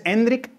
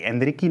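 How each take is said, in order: First: "Hendrik" slow and high, EN-drik; natural pronunciation. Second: "Hendriki" with an extra i after the k; wrong final i. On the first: Guest recommending the safe form, "Hendrik" as EN-drik. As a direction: close "Hendrik" firmly on the k, no vowel after. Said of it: "no tienes fallo". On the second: Guest rejecting the over-imitation, "Hendriki" ending in ki. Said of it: "Hendriki no es". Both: Shown as a demonstration.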